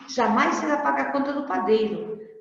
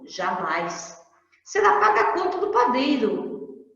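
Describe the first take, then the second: First: It flows without a pause after jamais. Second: There is a clear pause after jamais.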